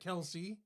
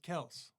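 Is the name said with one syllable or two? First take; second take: two; one. First: The name is said with two syllables. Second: The name is said with one syllable. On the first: The speaker calls it wrong. "they pronounce it Kelsey" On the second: The speaker calls it right. "That's Kels"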